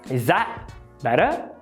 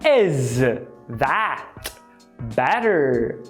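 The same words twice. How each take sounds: First: The sounds are dropped and the t is tapped. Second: Each word is said fully with clear consonants. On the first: "a gente vai ter is that better?" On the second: "da frase is that better"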